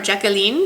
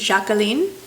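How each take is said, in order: First: The name is pronounced the English way. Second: The name is pronounced the French way.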